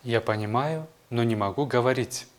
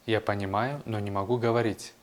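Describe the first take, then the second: No difference in how they are said.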